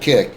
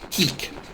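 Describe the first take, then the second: First: It is said flatly, with little energy. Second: It is said with lively, showy energy. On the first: The speaker calls it wrong. "It's just boring" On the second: The speaker calls it right. "with pizzazz"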